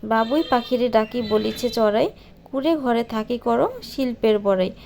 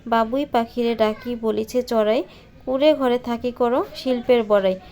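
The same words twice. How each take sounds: The two takes are said the same way.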